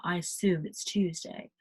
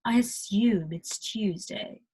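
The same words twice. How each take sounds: First: American "assume" and "Tuesday", plain oo; softer throwaway take, assume as "assoom", Tuesday as "Toosday"; wrong pronunciation. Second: Slow "assume" and "Tuesday" with y-glides; right British pronunciation. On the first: Teacher showing what it's not, American pronunciation of assume and Tuesday. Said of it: "It's not". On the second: Teacher showing the right way, careful British assume and Tuesday. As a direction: correct it slowly to British "assyume" and "Tyuesday" for assume and Tuesday. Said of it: "It's not "I assume it's Tuesday". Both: Shown as a demonstration.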